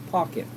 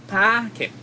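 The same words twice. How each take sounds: First: "Pocket" with a rounded o, said softer. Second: "Packet" with a wide open a, mouth open; open a sound. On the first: Teacher models pocket against packet. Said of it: "Packet versus pocket". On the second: Teacher models packet with an open a. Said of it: "open your mouth". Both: Shown as a demonstration.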